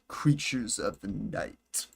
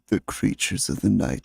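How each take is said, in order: First: It is said in the speaker's ordinary voice. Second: It is said in a put-on dramatic voice. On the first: "did I not say that right?" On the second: "How is my uh, impersonation?"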